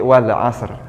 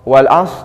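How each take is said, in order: First: The word ends with a clear r sound. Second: The word ends without any r sound. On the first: The speaker calls it right. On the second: The speaker calls it wrong.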